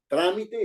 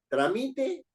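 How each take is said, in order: First: The stress is on the first syllable. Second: The stress is on the middle syllable. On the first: "es una palabra esdrújula" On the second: "tiene la mayor fuerza de voz en mí, es una palabra grave"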